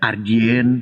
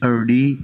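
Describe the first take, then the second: First: The name is said with a Chinese-style pronunciation. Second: The name is said with an English-style pronunciation. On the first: "di Cina jadi eh, Ardien" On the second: "di dalam bahasa Inggris bisa jadi Erdi"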